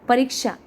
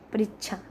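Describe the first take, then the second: First: It is pronounced in the standard Hindi form. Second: It is pronounced in a colloquial dialect form.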